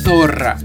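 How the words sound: The z is said like th. This is how it is said in most of Spain. "la mayor parte de España produce esa letra interdental"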